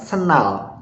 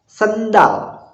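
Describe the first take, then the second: First: The middle 'd' sound is left out. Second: The middle 'd' sound is clearly pronounced. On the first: "jadi D-nya nggak ada" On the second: "D-nya ada kan?"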